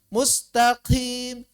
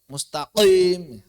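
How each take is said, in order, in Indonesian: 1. Huruf q dicampur dengan hembusan napas yang berdesah. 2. Huruf q diucapkan dengan tekanan kuat dan berat. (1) "mencampur dengan hams" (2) "suaranya terdengar terlalu kuat"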